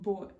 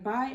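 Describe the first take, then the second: First: The vowel is a broad 'oi' sound. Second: The vowel is the plain 'eye' sound. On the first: "in this accent, buy ... would be pronounced with an oi sound" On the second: "rather than buy"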